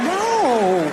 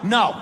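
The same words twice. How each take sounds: First: It is said coyly, as a teasing refusal. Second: It is said as a firm refusal.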